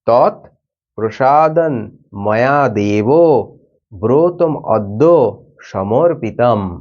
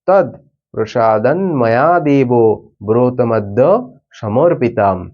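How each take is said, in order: First: It is recited slowly and deliberately. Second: It is recited at a quicker, normal pace.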